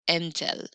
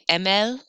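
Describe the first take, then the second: First: A t sound separates the two vowels. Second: The two vowels run together with no t. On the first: The speaker calls it right. "I got to break it up a little bit" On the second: The speaker calls it wrong. "I can't say M L. That sounds like bleh, just too flowy"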